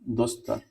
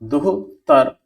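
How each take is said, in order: First: An s sound comes before the t. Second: An h sound comes before the t. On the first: The speaker calls it right. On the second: The speaker calls it wrong.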